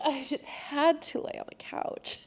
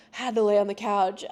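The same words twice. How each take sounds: First: High, soft, laughing confession; amused, softer and higher; laughing repeat. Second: Said in the usual way. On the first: Real, not acted. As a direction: repeat it through a laugh, pitched up.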